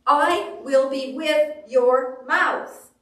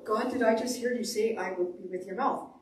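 First: Slow, loud, emphatic promise; big deliberate pronouncement, drawn out; God's declaration. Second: Doubtful question, rising at the end; puzzled query to God. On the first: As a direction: proclaim it word by word as God. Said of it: "And he says". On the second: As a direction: check whether you heard right. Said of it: "that's where you go". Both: Acted.

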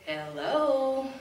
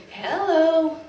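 First: Parrot call. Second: A louder squawked hello, higher; loud parrot call. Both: Retold or imitated. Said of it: "she'll say".

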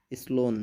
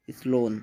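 The two takes are said the same way.

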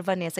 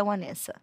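First: Vanessa said with a clear V sound; Brazilian pronunciation. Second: Vanessa said with a W sound, like "Wanessa"; American pronunciation. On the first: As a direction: say Vanessa starting on a firm buzzing V. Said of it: "Se você estiver no Brasil, fale, por favor". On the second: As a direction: say Vanessa starting on a rounded W glide, not a V. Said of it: "Se você estiver nos Estados Unidos". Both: Shown as a demonstration.

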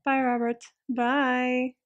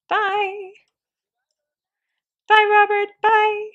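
First: Said in the usual way. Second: High, loud, drawn-out calls of bye; overexcited goodbye. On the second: Pretend. Player waves off the departing game son, overexcited. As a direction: call out a farewell, pitched way up. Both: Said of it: "I got a little overexcited".

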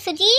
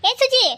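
First: A first searching call, rising at the end. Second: Loud, high-pitched holler for his wife; shouted call. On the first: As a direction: call for your wife with a questioning lift. Husband calling for his wife. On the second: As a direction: shout her name across the house. Husband calling again, much louder. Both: Acted.

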